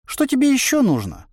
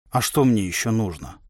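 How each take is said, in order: First: High-pitched puzzled inner voice; surprised. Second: Said in the usual way. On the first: A narrator's reading. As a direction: ask in a high, incredulous lilt. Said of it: "удивился голос". (удивлённо, высоким голосом) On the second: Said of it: "почесав затылок, спросил я".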